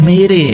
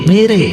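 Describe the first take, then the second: No difference in how they are said.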